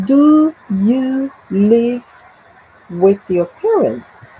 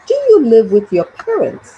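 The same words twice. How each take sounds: First: Slow, separated words in "Do you live with your parents"; word-by-word model. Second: Said in the usual way. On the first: Shown as a demonstration. Teacher reading out an example question, slow and word by word.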